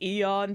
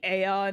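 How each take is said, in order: First: The word begins with an 'ee' vowel sound. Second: The word begins with an 'ay' vowel sound. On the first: This is the technically correct pronunciation. The speaker calls it right. "it's Eon technically" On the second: This is how the speaker habitually says it. The speaker calls it wrong. "I say Aeon"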